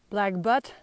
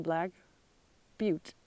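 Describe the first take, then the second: First: The last word sounds like 'butt'. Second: The last word sounds like 'byoot'. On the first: The speaker calls it wrong. "I would have pronounced it butt" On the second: The speaker calls it right. "somewhere corrected me on how to pronounce B U T T E"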